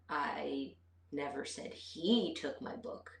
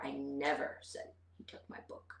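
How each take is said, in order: First: The stress is on the word he. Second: The stress is on the word never. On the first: Someone other than him took it. "but maybe she took it" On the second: I did not say it at all. "put the emphasis on never"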